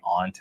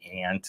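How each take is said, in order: First: The vowel is a broad 'ah' sound. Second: The vowel is a flat 'a' sound.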